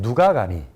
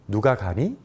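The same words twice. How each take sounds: First: The pitch is raised on 누가. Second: The pitch is raised on 가니. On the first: It asks who is going. "누가의 억양을 높이게 되면" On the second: It asks whether anyone is going. "가니를 억양을 높이게 되면"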